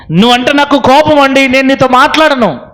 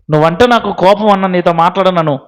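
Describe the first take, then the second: First: Higher, stress on కోపం; firm declaration. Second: Said in the usual way. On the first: Shown as a demonstration. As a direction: say కోపం with a firm push, like a vow. Repeats line more forcefully. (కోపం మీద ఒత్తిడితో దృఢంగా)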